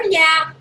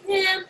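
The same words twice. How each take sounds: First: Keen guest. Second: Lukewarm guest. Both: Acted. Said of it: "she's like, sometimes".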